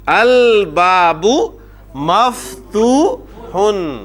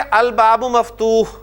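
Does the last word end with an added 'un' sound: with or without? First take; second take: with; without. First: The last word ends with an added 'un' sound. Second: The last word stops without an added ending. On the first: The full case ending is shown. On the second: This is how it is said in normal speech.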